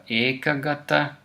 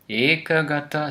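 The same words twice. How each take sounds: Both takes have the same delivery.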